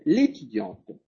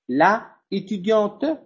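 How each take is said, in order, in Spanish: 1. La vocal del artículo se elimina antes del sustantivo. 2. La vocal del artículo se mantiene antes del sustantivo. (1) "vamos a decir l'étudiante" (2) "No voy a decir la étudiante"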